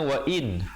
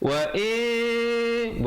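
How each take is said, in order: First: The final n is pronounced clearly. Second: The final n is hidden with nasal sound. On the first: This is the basic form of the word. "Asalnya wa in, hamzah baris bawah bertemu nun in" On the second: The next letter changes how the nun is read. "bukan in lagi dah"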